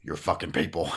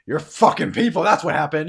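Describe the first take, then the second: First: Lower, restrained disbelief; low incredulous echo. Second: Loud, high furious outburst; raised voice, lashing out; angry accusation. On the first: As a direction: repeat the accusation in a low voice. Man echoes the accusation. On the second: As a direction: shout the blame at him. Onwin angrily accuses the man. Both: Acted.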